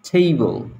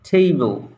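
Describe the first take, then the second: The two takes are said the same way.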